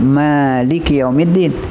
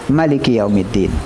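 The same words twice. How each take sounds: First: The first vowel of maliki is long. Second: The first vowel of maliki is short. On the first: The one who owns the Day of Judgement. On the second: The king of the Day of Judgement. "boleh baca pendek"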